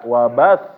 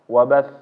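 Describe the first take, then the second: First: The ba syllable is pressed and raised. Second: It is said plainly, with no pressed sound. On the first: "ba-nya langsung ditekan, ditinggiin. Nah ini keliru" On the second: "seperti biasa"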